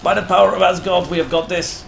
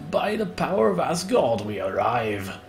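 First: Higher, louder, faster war cry; rally the troops at full voice; By the power of Asgard shouted high and fast as a rallying cry; loud battle cry. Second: Rising heroic call on power, settling down; By the power of Asgard proclaimed with swelling pride; grand battle cry. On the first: Rallying raiders mid-fight. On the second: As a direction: proclaim it like a warrior god. Announcing the raid arrival. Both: Acted.

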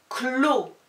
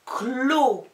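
First: "Clos" high and loud, less stretched; shorter dictation. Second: "Clos" with held L and long O; drawn-out dictation. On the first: Teacher dictating the third syllable, shorter but still loud. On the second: Teacher dictating the third syllable, high, loud and stretched. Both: Shown as a demonstration. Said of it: "des dictées de syllabes".

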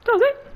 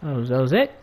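First: Very high-pitched repeat; squeaky protest. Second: Said in the usual way. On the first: Pretend. Player defending himself to officers, high mock squeak.

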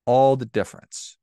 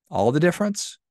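First: "all the difference" answered firmly, "all" stressed and louder with a falling tune; emphatic reply. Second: "All the difference?" asked back with a sharp rising tune on "difference", pitched higher; questioning echo. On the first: Speaker confirms the moral to viewers, stressed "all". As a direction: answer the doubt with weight on "all". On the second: Speaker voices the listener's doubt, rising question. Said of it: "Yeah, all the difference". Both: Shown as a demonstration.

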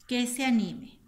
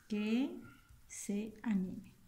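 First: Said in the usual way. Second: "Que", long pause, then slow "se anime"; dictating while writing. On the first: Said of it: "¿qué le dijo al tigre?". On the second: Shown as a demonstration. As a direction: dictate it slowly, dropping softer at the end. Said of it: "vamos a escribir una oración".

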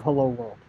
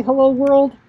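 First: "Hello, world." said low and quiet with a settled falling tune; firm final fall on "Hello, world."; certain statement. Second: "Hello, world" asked with a high, loud rising tune; hesitant rising "Hello, world?"; unsure question. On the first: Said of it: "We are determined, we are certain". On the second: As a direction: sound doubtful about "Hello, world". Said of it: "like, a question mark". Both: Shown as a demonstration.

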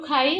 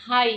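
First: Said in the usual way. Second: হাই said with a breathy h where standard Bengali has খ; Brahmanbaria h for kh. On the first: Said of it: "যেমন খাওয়া". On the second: Shown as a demonstration. Cook showing her village's হাই with an h in place of খ. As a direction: say হাই with a plain h, the local way. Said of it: "আমরা বলি".

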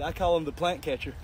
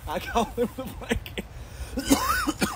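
First: Said in the usual way. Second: Mocking sing-song. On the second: Repeats the taunt mockingly.

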